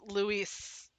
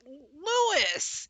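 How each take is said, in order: First: The name sounds like Spanish Loo-EES. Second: The name sounds like English Lewis. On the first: The speaker calls it right. "it's Luis" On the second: The speaker calls it wrong. "it's not Louis"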